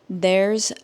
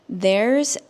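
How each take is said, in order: No difference in how they are said.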